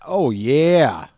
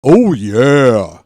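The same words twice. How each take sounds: First: Light Kool-Aid Man. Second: Booming loud mascot bellow; big loud cartoon pitchman cry; Kool-Aid Man. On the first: Retold or imitated. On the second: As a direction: burst through the wall shouting it. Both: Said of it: "My Kool-Aid Man impression".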